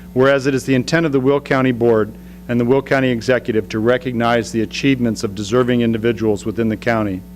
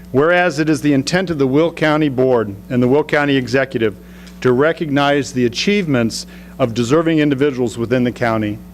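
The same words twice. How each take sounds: The two takes are said the same way.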